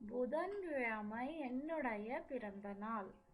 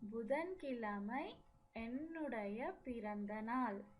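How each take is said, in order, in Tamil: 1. 'my' என்ற சொல் முழுமையாக சொல்லப்படுகிறது. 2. 'my' என்ற சொல் முழுமையாக சொல்லப்படுகிறது.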